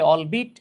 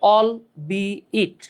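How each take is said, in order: First: The second part sounds like 'bit'. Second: The second part sounds like 'be it'. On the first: The speaker calls it wrong. "অনেকে অল বিট" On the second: The speaker calls it right. "এটার উচ্চারণ হচ্ছে অল বি ইট"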